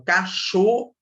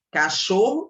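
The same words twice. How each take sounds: First: Cachorro broken out with a strong CHO; stress on CHO. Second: Said in the usual way. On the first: Shown as a demonstration. Teacher pointing out the tonic syllable, CHO stressed in cachorro. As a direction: hit and lift the CHO in cachorro. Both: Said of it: "o cho é a minha sílaba tônica".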